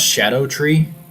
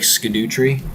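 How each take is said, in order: First: The first part sounds like 'shadow'. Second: The first part sounds like 'skadoo'. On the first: This is the intended pronunciation. The speaker calls it right. "it's pronounced Shadow Tree" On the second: This is a literal reading of the spelling. The speaker calls it wrong. "it looks like Skidoo Tree"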